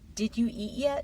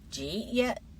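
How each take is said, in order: First: Every word is pronounced fully and carefully. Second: The words are reduced and run together. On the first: "the textbook version first" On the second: "then the natural version"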